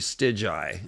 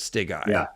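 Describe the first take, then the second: First: It sounds like the start of 'Stygian'. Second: It does not sound like 'Stygian'. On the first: The speaker calls it right. "it should be Stygi instead of ... because of Stygian" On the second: The speaker calls it wrong. "instead of"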